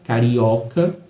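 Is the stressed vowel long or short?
short. The stressed vowel is short and plain. "a gente geralmente ouve as pessoas dizendo carioca"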